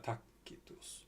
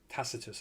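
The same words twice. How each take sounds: First: The c is sounded as a k. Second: The c is sounded as an s. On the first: This is the original Latin pronunciation. "but C's would be pronounced K's" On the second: This is the usual modern pronunciation. "I believe they pronounce it"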